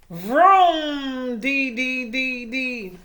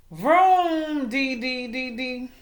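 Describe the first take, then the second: First: Loud vroom then sing-song dee dees; engine vroom. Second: Fading engine noise; engine vroom fading. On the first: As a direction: belt out a motor revving. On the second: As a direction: rev then let it fade out. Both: A narrator's reading. Engine noise sound effect.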